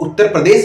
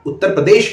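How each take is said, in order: First: The last sound is a plain 's'. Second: The last sound is an 'sh'. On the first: The speaker calls it wrong. "श को स बोलते हैं" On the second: The speaker calls it right. "तो श बोलिए उसको"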